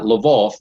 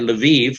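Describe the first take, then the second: First: The name is said with Russian pronunciation. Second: The name is said with Ukrainian pronunciation. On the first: "not Lvov, the Russian" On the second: "I prefer to use that that pronunciation, the Ukrainian"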